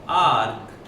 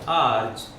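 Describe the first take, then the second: First: The word ends with a k sound. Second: The word ends with a ch sound. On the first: "आर्क या आर्च, जो मर्जी pronounce करें" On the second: "आर्क या आर्च, जो मर्जी pronounce करें"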